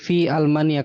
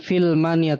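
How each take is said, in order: First: A glottal stop is pronounced before the second word. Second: The glottal stop is dropped and the words merge. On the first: The speaker calls it right. "tapi fi Almania karena ini hamzah qat'i" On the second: The speaker calls it wrong. "jangan filmania"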